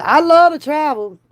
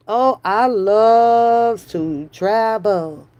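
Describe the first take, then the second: First: Higher and louder, I love to travel thrown out eagerly; excited declaration. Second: Slow, stretched oh, I love to travel; drawn-out dreamy version. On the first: Telling her friend she loves travel, eager and loud. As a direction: punch love with a bright lift. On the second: Teasing her friend about loving travel, slow and drawn out. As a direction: savour every word slowly. Joking she loves travel. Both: Pretend.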